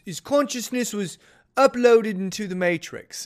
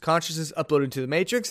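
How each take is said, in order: First: It is said in a put-on British accent. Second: It is said in the speaker's normal accent.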